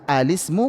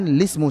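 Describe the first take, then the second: First: The word begins with a short vowel before l. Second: The word begins directly with the l sound. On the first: "Mulailah dengan hamzah" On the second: "bisa dengan lismu saja"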